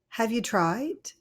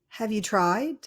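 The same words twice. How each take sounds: No difference in how they are said.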